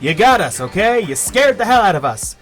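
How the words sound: It is said in a put-on character voice.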